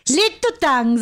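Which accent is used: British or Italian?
Italian. It is said in an Italian accent. "You should do an Italian accent"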